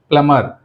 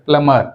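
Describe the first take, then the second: The two takes are said the same way.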